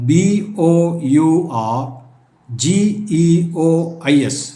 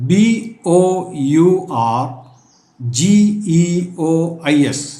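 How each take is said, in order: No difference in how they are said.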